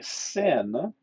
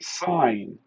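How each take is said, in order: First: It is said like the word 'sin'. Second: It is said like the word 'sign'. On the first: The speaker calls it wrong. "it's not actually sin" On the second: The speaker calls it right. "we actually pronounce it sine"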